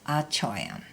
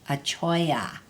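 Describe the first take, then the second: First: The word ends with an m sound. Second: The word ends without an m sound. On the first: "Another important word ending in choyam is achoyam" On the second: "often the M is left off of the end"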